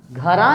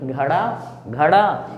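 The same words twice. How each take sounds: First: घड़ा wrongly said as "ghara"; light tapped र replacing ड़ in घड़ा; mispronounced with र. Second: घड़ा with flicked ड़; half-strength ड in घड़ा; retroflex flap ड़. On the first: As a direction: say घड़ा with no retroflex flick. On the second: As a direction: jerk the tongue on ड़ in घड़ा. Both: Shown as a demonstration. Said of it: "घड़ा नहीं".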